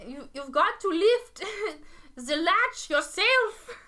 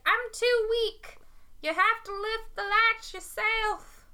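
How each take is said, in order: First: High, loud, slow, badly faked German accent; German grandmother accent. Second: High, slow Southern grandmother; southern accent. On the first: Grandmother telling the visitor to open up, terrible German accent. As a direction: ham up a German granny, breaking into laughter. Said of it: "rendition of a German grandmother". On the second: Acted. Weak grandmother to the wolf at her door, high Southern accent. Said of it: "has a southern accent".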